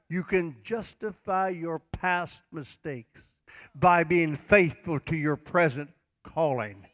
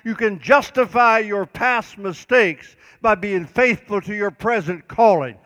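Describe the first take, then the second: First: It is said at a slower pace. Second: It is said at a faster pace.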